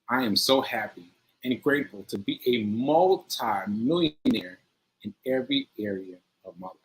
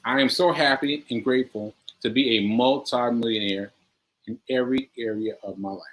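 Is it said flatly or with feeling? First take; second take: with feeling; flatly. First: It is said with strong, heartfelt feeling. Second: It is said in a plain, flat way.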